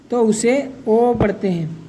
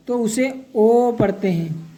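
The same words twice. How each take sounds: The two takes are said the same way.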